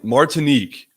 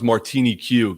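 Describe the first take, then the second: First: The word ends with a single 'neek' sound. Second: The word ends with 'nee' then 'cue'. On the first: The speaker calls it right. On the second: The speaker calls it wrong.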